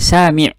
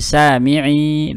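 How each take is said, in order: First: The word stops short without a final vowel. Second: The final vowel is held for two counts. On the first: The speaker calls it wrong. "tidak boleh sami'" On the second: The speaker calls it right. "tapi sami'i, dua harokat"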